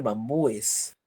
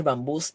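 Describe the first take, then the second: First: "bambúes" with stressed U, then separate -es; plural in ES. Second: "bambús" with stressed final -bús; plural in S. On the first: Teacher showing the other accepted plural, "bambúes" ending in a separate -es. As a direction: say "bambúes" in three syllables, bam-bú-es. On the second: Teacher showing one accepted plural, "bambús" ending in stressed -bús. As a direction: say "bambús" in two syllables, S straight after stressed U. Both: Shown as a demonstration. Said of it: "los que admiten S y E S".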